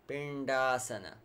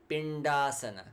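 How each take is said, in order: No difference in how they are said.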